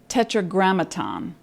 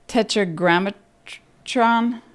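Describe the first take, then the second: First: The word ends with a 'ton' sound. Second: The word ends with a 'tron' sound. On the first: The speaker calls it right. "wait a minute, I know" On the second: The speaker calls it wrong. "that sounds like um, Transformers"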